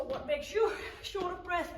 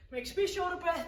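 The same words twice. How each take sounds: First: YOU punched higher than the rest; stress on YOU. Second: ME lifted high for contrast; stress on ME. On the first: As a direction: lean on the word "you" to contrast it. Contrasts you with me. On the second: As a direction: lean on the word "me". Contrasts me with you. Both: Real, not acted.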